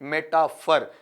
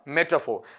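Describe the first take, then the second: First: The final syllable is a reduced 'fur' sound. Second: The final syllable is a rounded 'faw' sound. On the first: The speaker calls it wrong. "ज्यादातर बच्चे इसे फर भी पढ़ देते हैं" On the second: The speaker calls it right. "फार या फोर नहीं आपका वहां पर फो"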